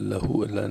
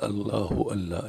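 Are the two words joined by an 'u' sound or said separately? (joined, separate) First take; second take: separate; joined. First: The two words are said separately without linking. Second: The words are joined with an 'u' after the h. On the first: The speaker calls it wrong. "اللہ اللہ نہیں" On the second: The speaker calls it right. "یعنی ہا کے اوپر پیش ہے، ملا کے پڑھنا ہوتے"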